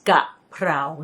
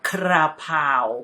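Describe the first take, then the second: First: The r sound comes in the second syllable. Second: The r sound comes in the first syllable. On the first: The speaker calls it right. "it's kaprao" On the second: The speaker calls it wrong. "not krapao"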